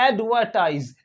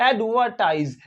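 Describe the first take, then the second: No difference in how they are said.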